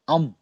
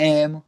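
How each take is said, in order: First: The vowel is an 'ah' sound. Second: The vowel is an 'eh' sound. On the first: "German में अम" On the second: "English में ये पढ़ा जाएगा ना एम"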